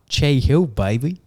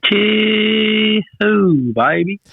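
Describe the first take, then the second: First: Loud, high and proud; excited. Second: Much higher, playful cheer; high excited echo. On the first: Real, not acted. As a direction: shout it like a celebration. Proudly announcing the new house. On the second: Retold or imitated. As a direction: echo it back in a squeaky cheer. Echoing the partner's big announcement.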